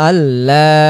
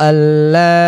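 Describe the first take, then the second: The two takes are said the same way.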